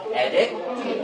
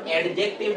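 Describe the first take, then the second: First: "অ্যাডজেক্টিভ" with the D left out; silent D. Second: "অ্যাডজেক্টিভ" with the D sounded before J; wrong-example "অ্যাডজেক্টিভ", D fully voiced before the J; D pronounced. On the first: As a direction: drop the D and go straight to J in "অ্যাডজেক্টিভ". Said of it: "ডি এর উচ্চারণ বাদ দিয়ে বাকিটুকু করো". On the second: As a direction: say the D clearly in "অ্যাডজেক্টিভ". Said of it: "এটার উচ্চারণ অ্যাডজেক্টিভ না". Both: Shown as a demonstration.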